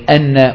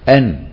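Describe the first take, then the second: First: The final n is held long and doubled. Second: The final n is short and single. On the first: The speaker calls it right. "التشديد" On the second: The speaker calls it wrong. "لو أنك تركت التشديد"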